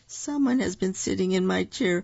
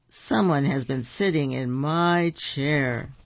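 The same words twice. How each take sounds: First: It is said in a small, little voice. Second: It is said in a big, deep voice. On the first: The smallest bear is speaking. "cried the baby bear in his wee little voice" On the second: The largest bear is speaking. "said the papa bear in his great big chair"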